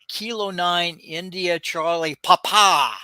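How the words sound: The last word, Papa, is said with emphasis. "I'll give an emphasis on the last letter"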